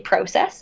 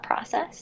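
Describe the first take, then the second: First: The word has a Canadian pronunciation. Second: The word has a non-Canadian pronunciation. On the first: "Canadians say process" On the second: "it's not process"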